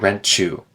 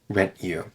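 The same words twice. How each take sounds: First: The t and y blend into a ch sound. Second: The t and y are said separately. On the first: "it turns into ch if there's a D or a T right before those words" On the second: "Or you could just choose to say rent you"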